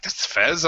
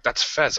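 First: Rising, surprised question; retold incredulous reaction; questioning disbelief. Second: Said in the usual way. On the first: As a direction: repeat the name as a doubtful question. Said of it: "I'm like". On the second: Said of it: "then they're talking like".

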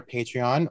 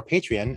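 First: Said in the usual way. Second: "Patreon" with a reduced last vowel, "PAY-tree-un"; Tom Daly's pronunciation. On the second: Retold or imitated. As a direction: say "Patreon" ending in an unstressed "-un", not "-on". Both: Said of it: "as Tom Daly says it".

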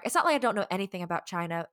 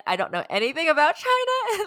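First: Said in the usual way. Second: Exaggerated overstatement. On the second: Real, not acted. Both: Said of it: "I backtrack".

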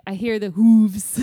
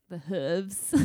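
First: Loud mock quote, long oo in "hooves"; "hooves" hammed up with a long oo; imitated British "hooves". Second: "hooves" with a short oo; "hooves" the everyday American way, short vowel. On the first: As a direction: imitate the narrator, "hooves" rhyming with "moves". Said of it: "He's like". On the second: Shown as a demonstration. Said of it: "We would say more like".

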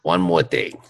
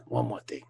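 First: Lightly voiced detective catchphrase; a hint of Columbo, ending low. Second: Much softer, lower Columbo line; quiet Columbo aside. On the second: Retold or imitated. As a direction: mutter it under your breath like Columbo. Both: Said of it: "Missus Columbo".

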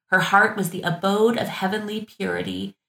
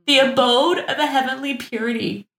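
First: Said in the usual way. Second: Higher, theatrical gushing over "the abode of a heavenly purity"; lofty mock-reverent echo of "abode"; mock grandeur. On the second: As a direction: ham up the flowery phrase "heavenly purity". Mock re-reading flowery quote.

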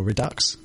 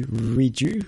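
First: "Redux" with a sounded X at the end. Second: "Reju" said French-style, silent ending. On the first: Host offering the other reading, "Redux" ending in "ks". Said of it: "How do you pronounce it?". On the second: Host unsure of the title, French-style "Reju". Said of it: "thought it was a French word". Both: Shown as a demonstration.

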